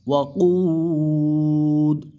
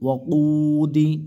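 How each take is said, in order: First: The word ends on a bare consonant d. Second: The word ends with a short i vowel. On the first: The reading stops at the end of the verse. "ওয়াকফের কারণে কি হবে, এরকম উচ্চারণ হবে" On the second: The reading continues without stopping. "দাজের দি"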